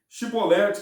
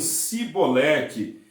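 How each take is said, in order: First: The word begins with an sh sound. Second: The word begins with a plain s sound. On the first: The speaker calls it right. "a pronúncia correta era Shibolete" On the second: The speaker calls it wrong. "Eles diziam Sibolete"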